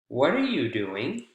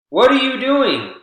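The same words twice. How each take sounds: First: It sounds polite, with only content words stressed. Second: It sounds angry, with every word equally stressed.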